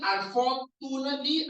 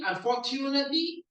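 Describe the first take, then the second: First: "unfortunately" with a plain t, as "for-too-nately"; pronunciation options. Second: "unfortunately" with the tu as "chu", rising into a question; pronunciation options. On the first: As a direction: offer "unfortunately" without any ch sound. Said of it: "this T U is actually". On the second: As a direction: offer "unfortunately" with a ch sound, questioning. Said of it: "is actually a C H U". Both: Shown as a demonstration.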